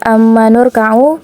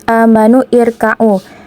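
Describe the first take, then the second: First: The words run together without the connecting vowel. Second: The second word starts with its own vowel. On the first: The speaker calls it right. "Jadi dia dibaca amanur ka'u" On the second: The speaker calls it wrong.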